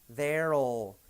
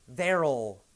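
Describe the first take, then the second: Both takes have the same delivery.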